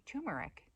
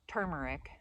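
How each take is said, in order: First: "turmeric" without the first R; "turmeric" opening with an oo sound; corrected pronunciation. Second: "turmeric" with the first R sounded; "turmeric" opening like "term"; old pronunciation. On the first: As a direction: say "turmeric" as TOO-mer-ic. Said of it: "it's actually turmeric". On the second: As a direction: say "turmeric" as TER-mer-ic. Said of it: "I said". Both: Shown as a demonstration.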